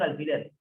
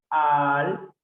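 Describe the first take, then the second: First: Said in the usual way. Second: "alfiler" split al-fi-ler, each piece held; syllable separation. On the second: Shown as a demonstration. Teacher showing the separación, "alfiler" in separate syllables. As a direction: break "alfiler" into slow syllables with gaps. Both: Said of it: "la separación en alfiler".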